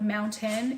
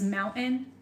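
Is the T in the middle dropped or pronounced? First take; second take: pronounced; dropped. First: The middle T is clearly pronounced. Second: The middle T is dropped.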